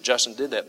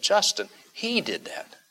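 First: Said in the usual way. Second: JUSTIN pitched high, then a stressed HE; emphatic. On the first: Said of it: "Not just that Justin did that". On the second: Shown as a demonstration. Preacher contrasting it with a bare statement, emphatic. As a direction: lift JUSTIN high, break, and punch HE. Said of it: "There's an emphasis there".

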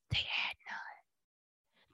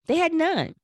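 First: "They had none." whispered slowly, no voice. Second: High, pointed stress on "had" in "They had none."; emphatic reveal. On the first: Same punchline said again whispered. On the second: Punchline repeated later as whisper. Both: Real, not acted.

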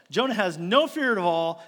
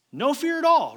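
First: Said in the usual way. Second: "No fear at all" pitched high and loud, "all" punched; emphatic stress. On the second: Acted. Preacher stressing to congregation that Jonah felt no fear. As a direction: hammer home "No fear at all".

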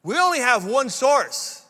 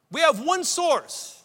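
First: Said in the usual way. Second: "We have one source" pitched higher and slower, each word weighted; slow it down and lift it, driving the point home; slower, higher echo of "We have one source"; emphatic repeat. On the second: Retold or imitated. Pastor's quote repeated for emphasis.

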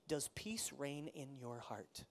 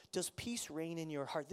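First: Does peace reign in your heart, slow and soft with weight on peace; slow emphasis. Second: Said in the usual way. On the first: Shown as a demonstration. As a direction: let the question sink in slowly. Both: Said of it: "repeats the question".

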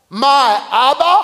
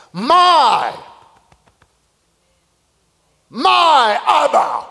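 First: Said in the usual way. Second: My said alone and held, then My Abba slow with weight on My; stress on my. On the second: Shown as a demonstration. Preacher dwelling on Isaac's word My, stressed. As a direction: lean hard on My before Abba. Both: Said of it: "Notice how he coins this now".

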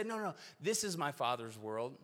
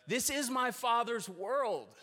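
First: Said in the usual way. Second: Much higher, slow, ringing proclamation; emphatic declaration. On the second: Acted. Preacher proclaiming the truth to the congregation, emphatic and slow. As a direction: declare it slowly, lifting every word. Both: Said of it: "every single week we say".

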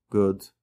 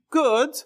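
First: Low, short, noncommittal reply; unenthusiastic answer. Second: High, upbeat, delighted reply; bright leap up in pitch; enthusiastic answer. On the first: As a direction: answer with no enthusiasm. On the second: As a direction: answer as if the day went great. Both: Shown as a demonstration. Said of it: "can be said so differently".

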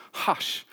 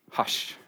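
First: Breathy whispered hush, almost no voice. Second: A firm, clipped scolding hush; telling off a naughty child. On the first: Preacher repeats Jesus stilling the storm, in a whisper. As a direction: let the hush fall to a whisper. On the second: Preacher quoting Jesus calming the storm, like scolding a child. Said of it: "like he's telling off a naughty child". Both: Retold or imitated.

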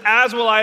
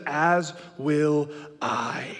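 First: Said in the usual way. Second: Drawn-out, half sung and giggling; pledge melting into laughter. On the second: Retold or imitated. Dad joining the fake pledge, laughing through it. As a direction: try to stay solemn but crack up.

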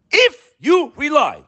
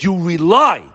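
First: "if" pitched way up and stretched slowly; stress on IF. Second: Said in the usual way. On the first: Shown as a demonstration. Preacher spelling out the word "if" to his listeners, punching "if" high. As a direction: lean hard on the word "if". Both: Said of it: "capital I, capital F".

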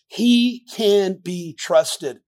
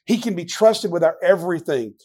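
First: Slow emphatic. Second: Said in the usual way. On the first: Shown as a demonstration.

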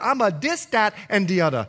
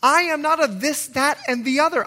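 First: "dis, dat" with D for TH, "other" as "udda"; Bahamian pronunciation. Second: "this, that, and the other" with careful TH sounds; standard TH sounds. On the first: Preacher claims his roots, Bahamian D sounds in "dis, dat, and the other". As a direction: say "dis, dat, and the other" island-style, hard D for each TH. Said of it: "you can hear a little bit of my accent". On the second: Preacher disowns learned speech, crisp TH in "this, that, and the other". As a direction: pronounce the TH clearly in "this", "that" and "other". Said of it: "I had to learn to speak like this".

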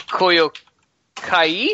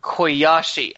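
First: "Koyo Kai" said haltingly as a question; butchered pronunciation. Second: "Koyashi" said as koy-AH-shee, falling; corrected pronunciation. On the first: Acted. Sai raises his glass with a foreign toast, butchered "Koyo Kai?". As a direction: sound out "Koyo Kai" wrongly, pausing between words, unsure. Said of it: "he knows he's gonna butcher the shit out of this pronunciation". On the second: Shown as a demonstration. Player repeats the word for cheers as taught, "Koyashi" koy-ah-shee. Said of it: "probably still butchered, uh, somehow".

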